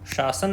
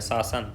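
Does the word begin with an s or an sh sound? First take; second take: sh; s. First: The word begins with an sh sound. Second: The word begins with an s sound. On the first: The speaker calls it wrong. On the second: The speaker calls it right.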